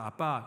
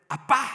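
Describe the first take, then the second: First: It is called sweetly and coaxingly. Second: It is called urgently and sharply.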